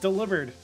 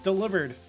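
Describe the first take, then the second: First: It sounds like the word 'delivered'. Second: The same.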